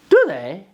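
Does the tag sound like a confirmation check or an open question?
confirmation check. Said with intonation that seeks agreement. The speaker calls it right. "because you're asking for confirmation"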